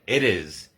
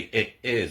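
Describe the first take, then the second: First: The t is pronounced like a quick d. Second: The t is pronounced as a clear t. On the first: The speaker calls it right. "the T becomes a D" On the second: The speaker calls it wrong. "We don't say"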